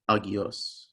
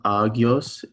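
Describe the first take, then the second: First: Each opening vowel is sounded separately. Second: The opening vowels merge into one sound. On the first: The speaker calls it right. "you pronounce each vowel alone" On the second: The speaker calls it wrong. "it's not agios"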